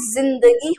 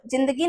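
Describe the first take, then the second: First: जिंदगी with a drawn buzzing z, zindagi; buzzed z. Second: जिंदगी with a hard j, jindagi; plain j. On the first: Teacher showing what the dot does, जिंदगी with buzzed z. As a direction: start जिंदगी on z, not j. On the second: Teacher showing the undotted reading, जिंदगी with plain j. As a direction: begin जिंदगी with j as in jam. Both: Shown as a demonstration. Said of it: "उच्चारण अलग तरीके से होगा".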